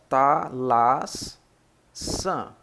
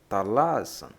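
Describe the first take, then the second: First: The word is split with a pause inside. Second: The word is said smoothly without a pause. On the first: "separando as sílabas" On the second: "você basicamente fala talasan"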